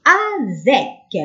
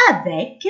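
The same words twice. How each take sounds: First: افيك slowly, in two stretched syllables; drawn-out sounding out. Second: Said in the usual way. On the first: Shown as a demonstration. Teacher showing pupils that c sounds like k, drawn-out sounding out. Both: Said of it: "نطقو كأنه كا".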